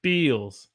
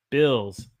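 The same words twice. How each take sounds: First: "Bills" as long "beels"; Southern held vowel. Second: Said in the usual way. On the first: Shown as a demonstration. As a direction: hold an ee in "Bills". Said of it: "One has a eel". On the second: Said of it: "One has a ill".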